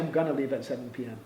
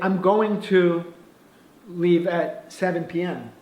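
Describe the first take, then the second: First: Going to is reduced to gonna. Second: Going to is said fully as two words. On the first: The speaker calls it right. "I think you say I'm gonna" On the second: The speaker calls it wrong. "I don't think you say I'm going to"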